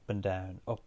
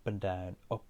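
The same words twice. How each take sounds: The two takes are said the same way.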